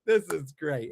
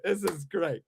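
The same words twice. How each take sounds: First: Said in the usual way. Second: Lightly voiced gushing fan, said lower; sarcastic fan saying it's great; mock fan praise. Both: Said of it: "is gonna wanna be like".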